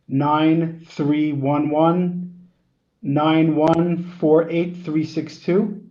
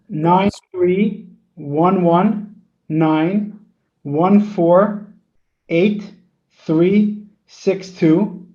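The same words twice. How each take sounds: First: The number is read at a normal, faster pace. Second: The number is read more slowly.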